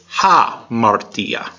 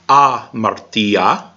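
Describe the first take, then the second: First: The word starts with an h sound. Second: The word starts directly with a vowel sound. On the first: The mark signals an invisible h. "it has a forward apostrophe, so it's hamartia" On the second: This is how it would be read without the mark. "Normally, the first word there would be amartia"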